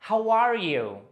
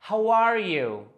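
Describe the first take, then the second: The two takes are said the same way.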